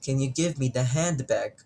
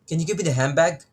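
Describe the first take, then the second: First: It is said slowly with every sound pronounced. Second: It is said quickly with sounds blended together. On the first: "kung ipopronounce mo siya ng mabagal"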